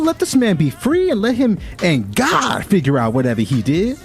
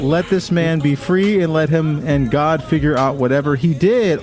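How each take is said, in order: First: It is said in a put-on sassy auntie voice. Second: It is said in the speaker's ordinary voice.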